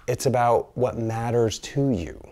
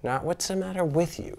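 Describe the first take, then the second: First: Slow, measured emphasis on "matters to you"; "matters to you" stretched out as the key point; contrasting emphasis. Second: Higher, softer "matter with you"; "matter with you" set apart in a raised, lighter pitch; contrasting emphasis. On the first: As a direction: land "matters to you" deliberately, in an even pitch. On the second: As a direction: lift "matter with you" high and soft as the rejected phrase. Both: Shown as a demonstration.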